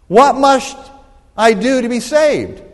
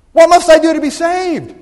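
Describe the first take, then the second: First: Said in the usual way. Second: Loud, high, urgent cry of a question; greater emphasis. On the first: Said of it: "Let's put a little more emphasis". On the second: Shown as a demonstration. Preacher asks the congregation the question with emphasis, shouted. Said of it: "put a little more emphasis on this time".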